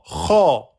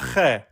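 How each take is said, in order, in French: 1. La syllabe est lourde, avec une voyelle O postérieure. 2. La syllabe est légère, avec une voyelle E antérieure. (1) "Je dirais Kho, Kho et pas Khe" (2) "et pas Khe"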